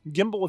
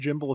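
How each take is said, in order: First: The word is said in an American way. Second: The word is said in a British way. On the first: "if you're American" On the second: "if you're British"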